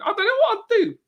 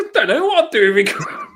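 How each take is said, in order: First: Much higher wailing mock sob; mock crying. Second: Laughing through the quote, louder and higher; the answer breaks up into giggles; laughing reply. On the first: Mocking herself to the hosts, hammed-up crying wail. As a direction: whimper it like a hammed-up cry. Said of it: "she'll be laughing". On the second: Retold or imitated. Retelling her answer to Chloe, laughing. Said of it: "I go".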